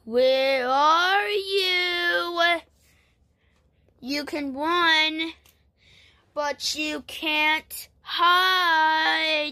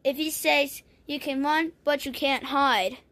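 First: Very slow, drawn-out monster taunt; menacing sing-out, play-acted; creepy monster. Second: Said in the usual way. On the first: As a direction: stretch each word like a stalking monster. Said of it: "That sound like a creepy monster".

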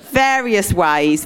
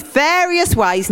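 First: Said in the usual way. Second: Higher, slow, knowing various ways; playful higher insinuating various ways; suggestive. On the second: Shown as a demonstration. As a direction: say various with a cheeky wink.

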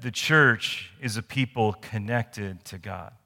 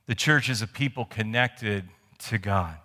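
First: Slow, spaced-out dictation for note taking. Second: Said in the usual way. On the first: Shown as a demonstration. Pastor dictating the point slowly to the congregation. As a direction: read it out slowly so they can write. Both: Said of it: "The first thing I want you to write down".

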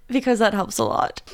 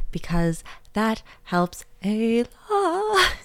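First: Said in the usual way. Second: Slow, stretched pleading read; drawn-out plea. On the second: Pretend. Host begging listeners for reviews, slow and stretched. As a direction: drag the words out like a begging host.

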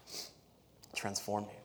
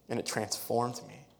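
First: Transformed drawn out slowly and quietly; soft and slow. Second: Said in the usual way. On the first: Shown as a demonstration. Preacher repeating his point to the church, soft and slow. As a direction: let "transformed" sink in, hushed and unhurried.

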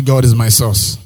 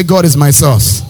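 First: Said in the usual way. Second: Loud, slow declaration; shouted with conviction. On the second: Shown as a demonstration. Pastor leading the congregation to declare it louder, with conviction. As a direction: proclaim it like you mean it. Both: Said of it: "Say it like you mean".

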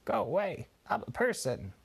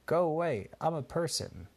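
First: Higher squawky parrot copy of the line; parrot repeating. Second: Higher, louder mock scold from dad; father telling the parrot to go away, mock cross; dad shooing the parrot. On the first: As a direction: parrot it back in a bird voice. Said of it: "the parrot would start repeating". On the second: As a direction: shoo the bird off, a bit cross. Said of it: "Benji's dada would say". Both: A narrator's reading.

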